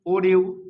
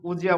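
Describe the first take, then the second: First: Said in the usual way. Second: "উজিয়া" with d and y fused into j; linked pronunciation. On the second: Shown as a demonstration. Teacher answers what this becomes, "উজিয়া" with a j link. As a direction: run it together as u-jia, "উজিয়া". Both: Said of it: "উজিয়া বলবো".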